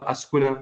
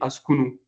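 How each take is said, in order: First: The word ends with the vowel a. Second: The word ends with the vowel u. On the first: The speaker calls it wrong. "C'est pas Askuna" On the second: The speaker calls it right. "je dis Askunu"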